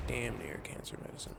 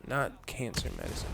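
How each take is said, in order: First: Softer clarifying restatement leaning on "Damn near"; quiet corrective "Damn near", falling at the end; stress on DAMN NEAR. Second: Firm corrective "Not"; stress on NOT. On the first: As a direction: stress "Damn near", then drop away on "cancer medicine". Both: Real, not acted.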